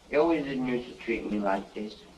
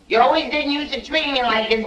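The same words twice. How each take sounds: First: It is mumbled quietly and unclearly. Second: It is said loudly and clearly.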